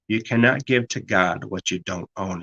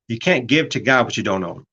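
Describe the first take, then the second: First: It is said very slowly. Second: It is said at a normal speed.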